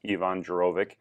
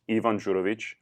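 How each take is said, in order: First: The name is pronounced the American way. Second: The name is pronounced the native, non-American way.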